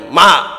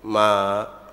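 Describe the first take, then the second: First: It is called out louder and stronger. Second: It is called out softly and gently.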